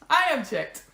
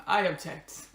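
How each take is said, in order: First: High, put-on little protesting voice; objecting part of the soul. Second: Said in the usual way. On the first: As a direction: pipe up in protest as a stubborn inner voice. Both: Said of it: "parts of my soul that are, like, objecting".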